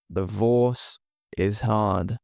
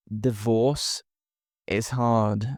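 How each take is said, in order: Both takes have the same delivery.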